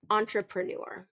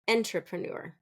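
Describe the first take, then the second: First: The stress is on the last syllable. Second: The stress is on the first syllable. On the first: The speaker calls it right. "reduce that first syllable ... end strong" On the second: The speaker calls it wrong. "I hear often"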